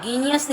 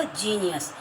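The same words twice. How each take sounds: First: "genius" as geeniyas, with hard g; wrong hard G. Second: "जीनियस" with j at the start; correct J sound. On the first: Teacher showing children the mistake, "genius" with hard g. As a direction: start "genius" with g as in goat. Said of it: "तो इसमें गा". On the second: Teacher answering her own question, "जीनियस" with j. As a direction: open "जीनियस" on j, not hard g. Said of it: "क्या होगा". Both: Shown as a demonstration.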